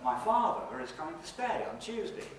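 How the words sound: It is split into three phrases, after father and stay. "three word groups with boundaries after father again and uh, a boundary after stay"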